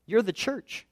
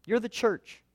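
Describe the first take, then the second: No difference in how they are said.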